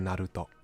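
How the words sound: The name is said with a Japanese pronunciation. "Like I say Naruto"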